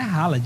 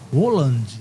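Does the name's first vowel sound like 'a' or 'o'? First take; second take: a; o. First: The first vowel sounds like an open 'a'. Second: The first vowel sounds like an 'o'. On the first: The speaker calls it wrong. "O nome do cara não é Haaland" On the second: The speaker calls it right. "é Roland, né? ... o A ... tem som de O"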